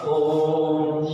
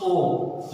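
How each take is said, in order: First: ओम with the ओ held for three beats; long drawn Om. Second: Said in the usual way. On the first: Shown as a demonstration. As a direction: draw out ओम's vowel like a chant. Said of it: "इसी ओ को तीन बार जितना बोला जाता है". (ओम को प्लुत स्वर में लंबा खींचकर) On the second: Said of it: "अगर एक बार ओ बोले तब तो हम".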